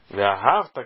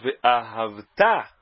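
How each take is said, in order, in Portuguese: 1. A tônica está na penúltima sílaba. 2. A tônica está na última sílaba. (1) "errado, totalmente errado" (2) "O correto é dizer ve'ahavta, é oxítona"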